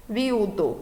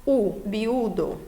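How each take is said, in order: First: Said in the usual way. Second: Slow biudo, leaning on the u; stress on the u. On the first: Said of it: "qual dos dois soaria mais forte". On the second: Shown as a demonstration. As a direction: stretch biudo, pressing the u. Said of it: "qual dos dois soaria mais forte um pouquinho". (biudo devagar, com ênfase no u)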